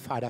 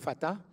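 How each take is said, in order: First: The name is said Jamaican-style, like slang father. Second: The name is said plainly, with a t sound. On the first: A friend read the name this way. "puisqu'il a un accent, il disait Fada" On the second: This is the real name. "il ne le lisait pas comme Fata"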